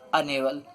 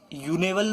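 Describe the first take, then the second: First: The word begins with an 'uh' vowel sound. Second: The word begins with a 'yoo' sound. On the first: The speaker calls it right. "हम क्या पढ़ रहे हैं? अनेबल" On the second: The speaker calls it wrong. "हम यूनेबल नहीं पढ़ रहे हैं"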